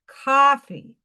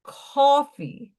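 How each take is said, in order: First: Coffee as "kawfee", rounded New York vowel; New York accent. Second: New York accent. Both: Shown as a demonstration. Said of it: "I'm losing my New York accent".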